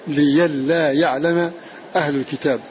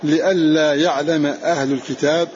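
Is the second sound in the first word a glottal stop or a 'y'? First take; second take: y; glottal stop. First: The first word has a 'y' sound after 'li'. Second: The first word has a glottal stop after 'li'.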